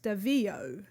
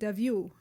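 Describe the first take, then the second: First: The name is said with an anglicized pronunciation. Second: The name is said with a French pronunciation. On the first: This is the pronunciation the name's owner lists. "on the website... it says it's pronounced Davio" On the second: This is how the name would sound in French. "if I was pronouncing it as French, I would pronounce it Davio"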